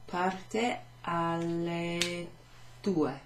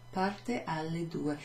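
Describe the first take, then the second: First: Very slow, parte stretched; slow careful teacher answer; slow model answer. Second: Said in the usual way. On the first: Shown as a demonstration. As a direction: draw out "Parte alle due" for learners. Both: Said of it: "We could answer it".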